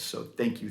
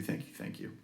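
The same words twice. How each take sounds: First: Said in the usual way. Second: Whispered, much softer thank you. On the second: Real, not acted. Repeated thanks to members.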